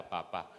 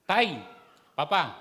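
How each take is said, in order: First: Said in the usual way. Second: Put-on called out high and loud like a child; child calling father. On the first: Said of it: "Ayan, mas maganda". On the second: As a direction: call out to Papa like an eager kid. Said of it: "ah, anak". (batang tumatawag sa ama, mataas at malakas)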